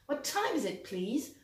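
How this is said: It is said with English stress and melody. The speaker calls it right. "Là, c'est la version anglaise"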